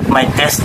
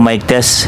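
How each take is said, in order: First: The voice sounds distant and less full. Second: The voice sounds full and close. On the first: The speaker calls it wrong. "testing natin ng walang rappel na gamit" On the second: The speaker calls it right. "gamitin naman po natin yung ating lavalier mini mic"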